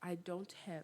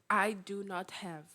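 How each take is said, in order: First: Do and not are contracted into one syllable. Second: Do and not are said as separate words.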